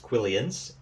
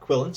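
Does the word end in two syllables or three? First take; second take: three; two. First: The word ends in three syllables, like quill-ee-an. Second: The word ends in two syllables, like quill-in. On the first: The speaker calls it wrong. "that's a throwback to the old style of spelling" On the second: The speaker calls it right. "the correct, pr- correct pronunciation is uh, quillin"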